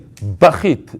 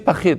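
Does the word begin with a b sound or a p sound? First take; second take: b sound; p sound. First: The word begins with a b sound. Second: The word begins with a p sound. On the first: "and they'll say bachit" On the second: "tell the guy say pachit"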